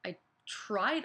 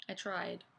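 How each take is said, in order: First: "tried" lifted in a rising, disbelieving question; rising, slighted repeat of "tried"; questioning echo. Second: Soft, falling, let-down repeat; hushed, deflated aside; subdued echo. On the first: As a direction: throw "tried" back as a question. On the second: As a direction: repeat it quietly to yourself as it sinks in. Echoes teacher's verdict, let down. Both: Acted.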